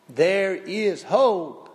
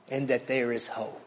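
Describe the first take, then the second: First: There is hope said slowly, landing hard on hope with a falling close; slow emphatic hope. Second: Said in the usual way. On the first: Real, not acted. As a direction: lean on hope, stretch every word. Preacher repeats hope for emphasis.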